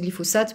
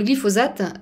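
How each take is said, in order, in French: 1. La consonne du milieu est un son s. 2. La consonne du milieu est un son z. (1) "je prononçais glyphosate parce que je venais de- d'Amérique latine" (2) "je m'efforce de faire comme s'il y avait un Z"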